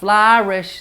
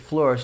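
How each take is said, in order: First: The first vowel sounds like flower. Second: The first vowel is pure and simple. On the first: The speaker calls it wrong. "almost like you're saying flower-ish" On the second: The speaker calls it right. "The vowel stays pure. You said flourish"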